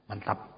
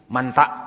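First: The word ends with a clear final p sound. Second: The word ends without a final p sound.

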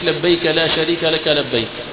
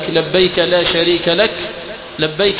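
First: The pause comes after the last labbayk. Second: The pause comes before the last labbayk. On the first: The last labbayk closes the previous phrase. "تأتي بالوجه الآخر" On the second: The last labbayk begins the next phrase. "أن تقول لبيك اللهم لبيك"

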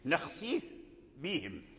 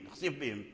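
First: The f sound is clearly heard before the b. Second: The f sound is swallowed into the b. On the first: The speaker calls it right. "هكذا، إذن لا بد من البيان" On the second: The speaker calls it wrong. "وهذا ما يفعله الناس ... إذن الفاء أين هو؟ مشى؟"

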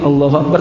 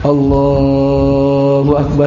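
First: The phrase is said short and clipped. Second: The phrase is said long and drawn out. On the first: It signals bowing rather than prostration. The speaker calls it wrong. "memendekkan takbirnya" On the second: It signals going down into prostration. The speaker calls it right. "kalau sujud kan biasanya panjang"

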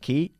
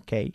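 First: It is said with an English pronunciation. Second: It is said with a Spanish-style pronunciation. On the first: The speaker calls it right. "Key y no key" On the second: The speaker calls it wrong. "y no key"

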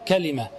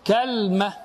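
First: Said with three syllables, ka-li-ma. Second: Said with two syllables, kal-ma. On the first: "وزن نبقة، وهي الفصحى" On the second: "على وزن تمرة"

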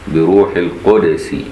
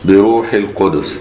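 First: The d is followed by a short u vowel. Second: The d has no vowel and a slight bounce. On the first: This follows the other reading traditions of the text. "باقي القراء بضم الدال" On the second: This follows one reading tradition of the text. "بتسكين الدال مع القلقلة في قراءة المدني"

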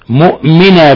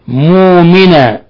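First: A glottal stop is pronounced after the first m. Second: The glottal stop is dropped, with a long vowel. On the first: "بالهمز" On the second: "بحذف الهمزة"

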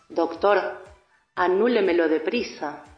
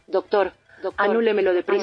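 First: The phrase is said slowly. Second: The phrase is said quickly. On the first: "esta vez un poco más despacio" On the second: "3 veces seguidas y rápido"

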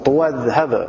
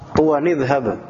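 First: Tuwa runs straight into dhhab without n. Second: An n sound links tuwa to idhhab. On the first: This follows the reading that drops the tanwin. "Wasal tapi tanpa tanwin" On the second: This follows the reading that keeps the tanwin. "Itu kalau kita tanwinkan"

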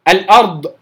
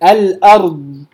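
First: The final consonant is cut short with a bounce. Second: The final consonant is drawn out, flowing. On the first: The speaker calls it wrong. "اللي بينطق الضاد بغير استطالة أصلا ... كأنها مقلقلة" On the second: The speaker calls it right. "الضاد بتجري معايا، بتجري على حافة اللسان"

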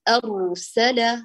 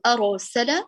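First: The r stays firm with only a hidden trill. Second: The r bounces with an added echo vowel. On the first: The speaker calls it right. "بل نقول أرسل أر أر، الراء ثابتة" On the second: The speaker calls it wrong. "فلا نقول أرسل أرو أرو"

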